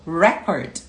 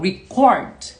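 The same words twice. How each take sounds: First: The stress is on the first syllable. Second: The stress is on the second syllable. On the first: "a sílaba forte vai ter um apóstrofe antes do re" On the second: "vai ter um apóstrofe antes do cor"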